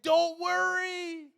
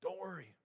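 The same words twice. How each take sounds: First: High, loud, drawn-out call; booming slow reassurance in a raised pitch; exaggerated reassurance. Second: Soft, hushed comfort; quiet acted reassurance; gentle reassurance. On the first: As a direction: stretch it out big and slow, hammed-up. Acts Jesus reassuring, exaggerated. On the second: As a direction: say it softly to someone who needs calming. Same words, now to congregation.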